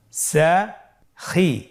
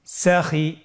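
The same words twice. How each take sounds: First: "সাখি" very slowly in two separate syllables; syllables apart. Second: "সাখি" run together as one word; syllables joined. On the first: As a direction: split "সাখি" with a clear pause between syllables. ("সাখি" ভেঙে ভেঙে ধীরে) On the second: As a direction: blend both syllables of "সাখি" without a break. ("সাখি" একসাথে মিলিয়ে) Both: Shown as a demonstration. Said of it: "এভাবেও পড়তে পারেন".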